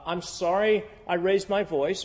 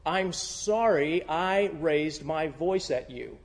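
First: "sorry" rising into an excuse; apology leading into an excuse; excusing apology. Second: Slow, sincere, no excuses; a clean apology said slowly. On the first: Retold or imitated. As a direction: set up the "but". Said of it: "how many of you have used". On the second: Shown as a demonstration. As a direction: say it plainly and mean it. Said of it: "That's an apology".

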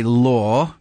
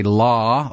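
First: Law said the English way, long open vowel; "law" with a round British aw. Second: Law said the American way, open ah vowel; "law" like American "lah". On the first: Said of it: "coming from England, we say law". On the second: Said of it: "they say law". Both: Shown as a demonstration.

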